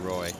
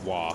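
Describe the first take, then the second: First: The name ends with an 'oy' sound, like boy. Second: The name ends with an 'ah' sound, like spa.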